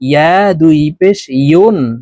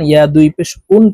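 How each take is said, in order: First: The last syllable starts with a y sound. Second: The last syllable starts with a bare vowel. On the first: The speaker calls it right. "বলতে হবে জিহ্বার মধ্যখান থেকে এইভাবে" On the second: The speaker calls it wrong. "আমরা অনেকে ইয়ার উচ্চারণ ইয়া দুই পেশ উন পড়ে থাকি"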